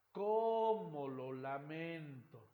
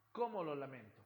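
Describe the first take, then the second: First: "¡Cómo lo lamento!" very slow, "cómo" on a big rise then fall; exclamatory melody. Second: Said in the usual way. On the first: Shown as a demonstration. Teacher showing students the melodic curve, slow wide arc. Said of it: "Hemos tenido una variación en la curva melódica". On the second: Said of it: "Se pueden dar cuenta ustedes".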